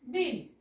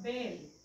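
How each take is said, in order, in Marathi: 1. या शब्दात 'i' स्वर आहे. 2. या शब्दात 'e' स्वर आहे. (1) "बिल उच्चार होईल का? तर नाही" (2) "मग हा उच्चार होईल त्याचा"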